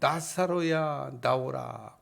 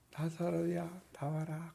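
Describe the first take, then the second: First: It is shouted in a loud voice. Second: It is said in a small, quiet voice.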